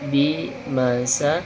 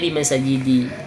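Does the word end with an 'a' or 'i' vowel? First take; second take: a; i. First: The word ends with an 'a' vowel. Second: The word ends with an 'i' vowel. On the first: The speaker calls it right. "harus dah karena insin bermusorif" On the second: The speaker calls it wrong. "nggak boleh bimasajidi"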